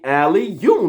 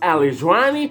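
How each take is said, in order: First: The name is said as two clear parts. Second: The name is slurred with extra sounds added. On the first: This is how the name really goes. The speaker calls it right. "It's only Ali, you" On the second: Other people mispronounce it. The speaker calls it wrong. "I'm still hearing"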